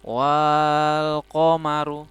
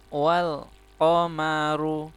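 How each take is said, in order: First: The first vowel is drawn out long. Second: The first vowel is kept short. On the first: The speaker calls it wrong. "tidak dibaca panjang" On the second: The speaker calls it right. "tapi dibaca pendek saja"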